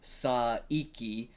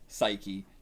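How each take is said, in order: First: Every syllable is said, including the middle vowel. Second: The middle vowel is dropped, giving two syllables. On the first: "Also with an I, it would be like Saiki" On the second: "they take out the middle. So it's just Psyche"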